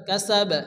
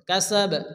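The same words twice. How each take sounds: Both takes have the same delivery.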